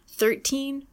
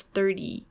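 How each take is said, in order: First: Thirteen with a crisp, released T; hard T and long ee in thirteen; true T in teens. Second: Thirty with a D-like T; flapped T in tens. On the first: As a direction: say thirteen with a clear "TEEN". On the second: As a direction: say thirty as "thirdy". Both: Shown as a demonstration. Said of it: "distinguish between teens and".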